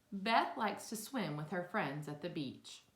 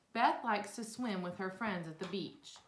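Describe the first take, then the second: Both takes have the same delivery.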